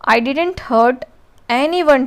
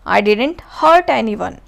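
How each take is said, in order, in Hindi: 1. शब्द anyone पर मुख्य बल है। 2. शब्द hurt पर मुख्य बल है। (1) "यहाँ पे एनी वन पे इम्फेसिस हो रहा है" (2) "अब यहाँ पे हर्ट पे इम्फेसिस हो रहा है"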